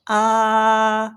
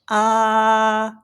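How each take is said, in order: First: The pitch stays high and level. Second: The same.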